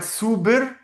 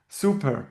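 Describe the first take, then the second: First: "super" with the p softened to a b; "super" said with a voiced b; spelling pronunciation. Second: Said in the usual way. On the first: Shown as a demonstration. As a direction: say "super" as written, like "suber". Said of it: "We write super". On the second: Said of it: "we read super".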